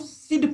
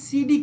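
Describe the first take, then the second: First: The word is said as one syllable. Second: The word is said as two syllables. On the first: The speaker calls it right. "इसको सिड पढ़ते हैं" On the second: The speaker calls it wrong. "बहुत लोग इसका उच्चारण सी डी कर देते हैं"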